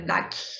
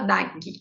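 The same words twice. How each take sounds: First: The word ends sharply on the g sound. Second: An extra vowel is added after the final g. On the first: The speaker calls it right. "O G, ele fica firme no final" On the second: The speaker calls it wrong. "nós costumamos sempre colocar uma vogal no final das palavras"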